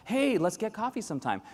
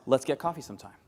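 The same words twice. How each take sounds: First: Higher breezy offhand invite; casual invite. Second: Said in the usual way. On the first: Retold or imitated. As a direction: offer without meaning it. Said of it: "I'll do that with my European colleagues". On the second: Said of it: "The other one that's hard is".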